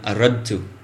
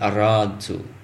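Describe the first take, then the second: First: The vowel after the r is short. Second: The vowel after the r is long. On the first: The speaker calls it right. "It should be ana, aradtu" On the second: The speaker calls it wrong. "not aradtu"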